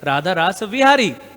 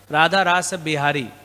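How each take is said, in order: First: The last word begins with a V sound. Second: The last word begins with a B sound. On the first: This follows the original Sanskrit form. "technically, Sanskrit word is Radha Rasa Vihari" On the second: This follows the Bengali way of saying it. "because our parampara is coming from Bengal, so V is pronounced as B"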